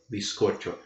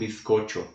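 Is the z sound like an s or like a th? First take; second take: s; th. First: The z is pronounced like an s. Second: The z is pronounced like a th. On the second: "Mas lá na Espanha será um bizcocho"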